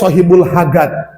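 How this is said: The second word has a hard g sound. "Jadi J itu jadi G"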